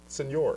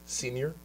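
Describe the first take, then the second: First: It is pronounced as the Spanish word señor. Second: It is pronounced like the English word senior. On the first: The speaker calls it right. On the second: The speaker calls it wrong.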